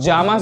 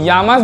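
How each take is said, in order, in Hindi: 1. पहला व्यंजन अंग्रेज़ी के j जैसा बोला जाता है। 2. पहला व्यंजन अंग्रेज़ी के y जैसा बोला जाता है। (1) "इसको जामस भी बोल सकते हैं" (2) "इसको यामस भी बोल सकते हैं"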